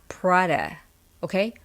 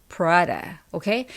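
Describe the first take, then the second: No difference in how they are said.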